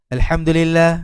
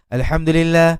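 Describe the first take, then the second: The two takes are said the same way.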